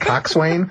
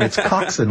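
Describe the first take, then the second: First: The second syllable is said in full. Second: The second syllable is reduced and shortened. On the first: The speaker calls it wrong. "laughing their butts off at me saying coxswain" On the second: The speaker calls it right. "It's coxswain, like a bosun, or, you know, all these Navy terms, they kind of shorten them"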